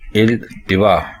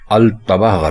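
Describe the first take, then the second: First: The word begins with an 'i' vowel. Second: The word begins with an 'a' vowel. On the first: The speaker calls it right. "इल्तिवा दुरुस्त है" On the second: The speaker calls it wrong. "अल्तवा गलत है"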